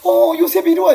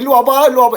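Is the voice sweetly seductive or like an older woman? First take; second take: sweet; older woman. First: It is said in a soft, sweet, seductive voice. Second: It is said like an older middle-aged woman.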